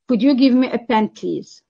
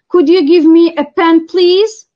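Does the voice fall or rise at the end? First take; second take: fall; rise. First: The voice falls at the end. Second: The voice rises at the end. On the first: It is a command expecting yes. "it sounds like a command, and the answer yes is expected" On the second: It is a polite request. "Polite request is going to be associated with the rising intonation"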